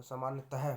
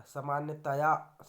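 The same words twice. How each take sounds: First: Said in the usual way. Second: सामान्यतया said loudly, ending 'ta-yaa'; wrong 'taya' ending. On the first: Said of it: "होता है". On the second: Shown as a demonstration. Teacher rejecting a form, सामान्यतया with loud 'ta-yaa'. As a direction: lean on 'yaa' closing सामान्यतया. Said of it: "नहीं होता".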